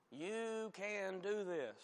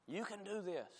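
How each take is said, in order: First: Drawn-out mock pep talk. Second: Higher, softer mock encouragement; mock pep talk. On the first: Preacher mimicking talk of self-determination, drawn-out pep talk. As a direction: stretch each word like an earnest motivator. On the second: Preacher mimicking talk of self-determination, mock pep talk. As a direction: imitate a motivational cheer, lightly.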